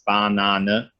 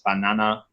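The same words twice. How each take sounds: First: It is said with a German accent. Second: It is said with a Spanish accent. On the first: "In German it's banana" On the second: "Spanish it's banana"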